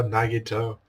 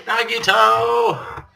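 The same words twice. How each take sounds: First: Said in the usual way. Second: Very high, very slow stretched call; drawn-out call. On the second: Acted. Calling to Nagito for comfort, long and high. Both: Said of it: "I don't feel very hopeful".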